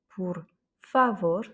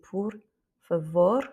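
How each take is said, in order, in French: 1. L'accent tombe sur la première syllabe de favor. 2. L'accent tombe sur la dernière syllabe de favor. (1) "c'est pas"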